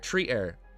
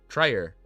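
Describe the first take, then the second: First: The word ends with a full 'air' sound. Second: The word ends with a weak 'er' sound. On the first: The speaker calls it right. "You said two things: tree, air" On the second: The speaker calls it wrong. "I read it as trier"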